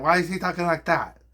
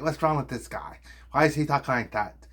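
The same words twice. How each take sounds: First: Higher-pitched parody of the question; mocking echo. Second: Mock puzzled viewer, slightly raised. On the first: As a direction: echo it back in a silly raised voice. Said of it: "And I'll be like". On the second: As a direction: imitate a baffled viewer asking. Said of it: "people are like".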